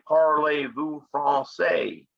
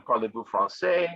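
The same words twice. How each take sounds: First: Slow Southern US drawl on the French words; French said in a Southern US accent, slowly. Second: Said in the usual way. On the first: Retold or imitated. Teacher imitating Louisiana French, slow Southern US accent. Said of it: "they say". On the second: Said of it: "instead of saying".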